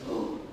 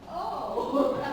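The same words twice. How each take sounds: First: The oh sounds unhappy and disappointed. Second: The oh sounds happy and pleased. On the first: "He's not happy"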